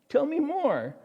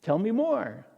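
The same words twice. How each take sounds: First: Higher, playfully coaxing; coy curious Jesus. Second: Said in the usual way. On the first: Acted. Jesus coaxing Cleopas, higher coy curiosity. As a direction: feign innocence, draw him out. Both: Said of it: "And Jesus says".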